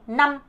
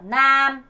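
First: "남" short and firm; strong short vowel. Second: "남" stretched long; wrong drawn-out vowel. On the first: Teacher correcting to the strong form, short. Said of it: "남, 강하죠". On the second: Teacher showing the form to avoid, drawn out. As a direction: drag out the vowel of "남" as the mistake. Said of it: "남 아니고 남". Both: Shown as a demonstration.

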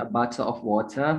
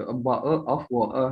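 First: "a bottle of water" with a flapped t, American style; American accent. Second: Slow British "a bowl of water" with the t dropped, "bowl" for bottle; broad British accent. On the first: Host contrasts the American version with the British one. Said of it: "Yang harusnya a bottle of water". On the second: Host demonstrates broad British pronunciation of bottle of water. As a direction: drop the t, stretch it slowly: "a bowl of water". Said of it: "Britishnya tuh benar-benar kayak a bowl of water". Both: Shown as a demonstration.

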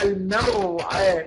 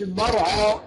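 First: Slow المرعى, thin م and fronted ending; light ain. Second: المرعى with dark "aa" vowels; wrongly heavy ain. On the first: Teacher modelling the correct word, المرعى slow and light. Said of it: "نقول إيه؟". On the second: Teacher showing what not to say, heavy المرعى. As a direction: thicken م and ع in المرعى. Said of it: "ما نقولش". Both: Shown as a demonstration.

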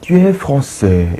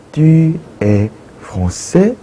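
First: Tu es français said as a plain statement, no rise on français; flat statement. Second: Tu es français with a rising question tune on français; question rise. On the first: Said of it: "이렇게 했다면은". (평서문 억양) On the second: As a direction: lift the end of français like a question. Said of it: "억양을 올려주는 거죠". (끝을 올리는 의문 억양) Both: Shown as a demonstration.

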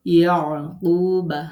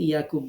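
First: ইয়াকুবা slow and louder with a full final আ; careful Arabic pronunciation. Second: Said in the usual way. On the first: Shown as a demonstration. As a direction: stretch out ইয়াকুবা with its Arabic ending. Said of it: "খেয়াল করে উচ্চারণ করবেন". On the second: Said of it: "আমরা বাংলায় কিন্তু ইয়াকুব বলি".

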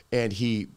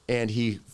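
No difference in how they are said.

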